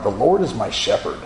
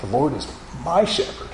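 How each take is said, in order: First: First take, stress on "Lord"; "Lord" ditekankan, nada turun; plain. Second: "my" diberi tekanan, nada naik; lembut, penekanan pada kata "my"; stress on my. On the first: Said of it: "I would inflect the words differently". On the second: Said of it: "And then one time I said". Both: Shown as a demonstration.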